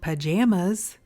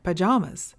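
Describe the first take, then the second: First: The middle vowel sounds like the vowel in 'jam'. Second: The middle vowel sounds like the vowel in 'llama'. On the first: "we call them jammies, which sounds more like pajamas" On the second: "llamas wear pajamas, which is more like pajamas"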